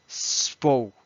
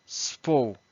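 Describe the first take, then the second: No difference in how they are said.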